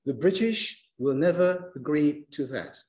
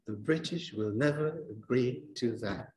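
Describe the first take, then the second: First: BRIT, NEV, GREE, THAT on the beat; rhythmic sentence on the count; stress timing. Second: Softer, "The British will never agree to that" landing on four even beats; stress-timed sentence under the breath. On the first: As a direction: fit "the British will never agree to that" into four beats. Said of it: "So look". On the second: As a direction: say it to the count, quietly. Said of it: "One, two, three, four". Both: Shown as a demonstration.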